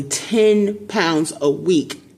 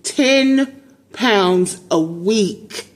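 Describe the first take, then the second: First: Said in the usual way. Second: TEN POUNDS A WEEK drawn out slowly, word by word, higher; emphatic repeat. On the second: Real, not acted. Mother making the listener let the weight loss sink in, slow emphatic repeat. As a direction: stretch TEN long and high, pausing before "pounds a week".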